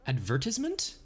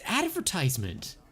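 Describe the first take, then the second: First: It is said in a British accent. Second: It is said in an American accent.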